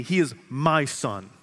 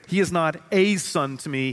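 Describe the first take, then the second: First: "my" stressed, said slowly and tenderly. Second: The word "a" stretched and stressed, dismissive. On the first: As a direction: dwell on "my" slowly, with love. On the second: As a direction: lean hard on "a" as if he were just anyone. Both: Shown as a demonstration.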